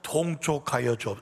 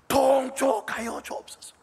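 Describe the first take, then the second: First: It is said plainly, without much feeling. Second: It is said earnestly, with deep feeling.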